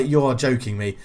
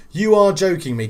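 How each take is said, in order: First: Said in the usual way. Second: Higher, louder incredulous cry; really can't believe it; real excited disbelief. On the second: Real, not acted.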